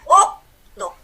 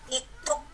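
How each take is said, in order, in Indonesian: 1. Kata itu diawali vokal u. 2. Kata itu diawali vokal i. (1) "kalau dia dhammah, maka dia juga dhammah" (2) "Yang dibaca-baca iktub"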